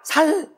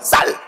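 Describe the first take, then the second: First: The first consonant is a plain 's' sound. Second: The first consonant is a tense 'ss' sound. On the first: The speaker calls it wrong. "안 되잖아요" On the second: The speaker calls it right. "쌀에 보라고"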